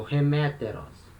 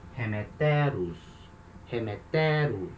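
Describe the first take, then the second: First: Slow "remeteros", weight on second syllable ME; unshifted accent. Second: Slow "remeteros", leaning on third syllable TE; accent shifted forward. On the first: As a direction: stress "remeteros" on the ME. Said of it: "Não modifica o acento". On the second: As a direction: stress "remeteros" on TE, last syllable long. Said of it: "o acento anda". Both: Shown as a demonstration.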